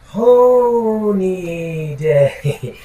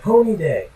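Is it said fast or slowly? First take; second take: slowly; fast. First: It is said very slowly, drawn out. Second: It is said at a quicker pace.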